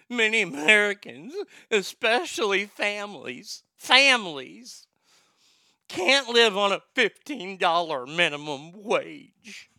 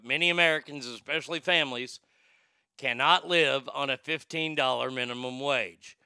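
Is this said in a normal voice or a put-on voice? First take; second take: put-on voice; normal voice. First: It is said in a put-on mocking voice. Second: It is said in his ordinary voice.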